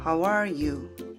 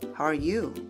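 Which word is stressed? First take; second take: are; you. First: The stress falls on the word are. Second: The stress falls on the word you. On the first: It asks the question first. "묻는 사람은 how are you 처럼 아래에 강세를 주고" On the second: It returns the question after answering. "you 부분에 강세를 주세요"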